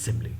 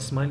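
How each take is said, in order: First: The word is said with three syllables. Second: The word is said as one syllable. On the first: The speaker calls it right. "it's simile" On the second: The speaker calls it wrong. "they pronounce it as smile"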